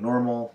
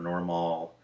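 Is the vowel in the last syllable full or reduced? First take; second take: reduced; full. First: The last syllable is a reduced, plain L sound. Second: The last syllable has a full, spelled-out vowel. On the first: The speaker calls it right. "instead of saying normal" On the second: The speaker calls it wrong. "or normal"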